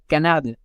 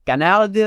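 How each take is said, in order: First: "canard" said the French way, short ending; French pronunciation. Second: "Canard" with a higher, drawn-out last vowel; Montreal pronunciation. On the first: Showing how France says duck, "canard" in French pronunciation. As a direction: say "canard" as in France, without stretching it. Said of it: "in the French France, you say". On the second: Showing how Montreal says duck, "Canard" in dragged-out Quebec pronunciation. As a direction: drag out the end of "Canard" like a Quebecer. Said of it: "in Montreal, they will say". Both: Shown as a demonstration.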